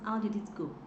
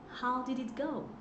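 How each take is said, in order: First: The O in 'go' is said short. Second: The O in 'go' is said long. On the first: The speaker calls it wrong. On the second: The speaker calls it right.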